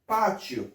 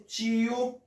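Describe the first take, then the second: First: Patio as PA-chyo, punched first syllable, falling; short falling patio, io run into one syllable; tonic stress. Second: Tiyo as CHEE-yo, high and held; higher two-syllable tiyo, left hanging; separated vowels. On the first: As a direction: hit PA in patio, glide quickly through the ending. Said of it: "efè aksan tonik". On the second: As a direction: stretch the i of tiyo, then a separate o. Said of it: "ki pa gen fòs aksan". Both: Shown as a demonstration.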